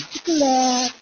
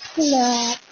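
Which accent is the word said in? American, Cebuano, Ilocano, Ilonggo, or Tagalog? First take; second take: Ilonggo; Ilonggo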